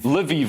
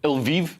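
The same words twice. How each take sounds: First: It is said unlike the shampoo name Elvive. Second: It is said like the shampoo name Elvive. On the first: The speaker calls it right. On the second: The speaker calls it wrong.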